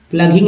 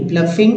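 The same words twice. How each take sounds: First: प्लगिंग said with a hard G, "plug-ing"; hard G mispronunciation. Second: प्लफिंग said "pluh-fing", with F in the middle; F instead of G. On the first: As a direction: show the mistaken G sound in प्लगिंग. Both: Shown as a demonstration. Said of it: "प्लगिंग नहीं".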